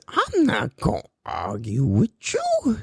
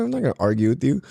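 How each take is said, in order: First: Slow, drawn-out catchphrase impression. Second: Said in the usual way. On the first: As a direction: stretch every word in a put-on voice. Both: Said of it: "What does [name] say?".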